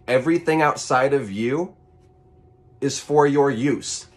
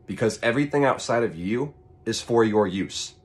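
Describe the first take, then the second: First: Everything outside of you is for your use, higher, louder, slow and weighty; emphatic repeat. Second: Said in the usual way. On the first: Shown as a demonstration. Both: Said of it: "repeats the line for emphasis".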